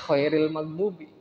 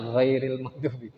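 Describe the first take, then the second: First: The first consonant is a voiceless kh sound. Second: The first consonant is a voiced gh sound. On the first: The speaker calls it wrong. "kedengarannya khairil maghdubi" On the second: The speaker calls it right. "harusnya ghairil maghdubi"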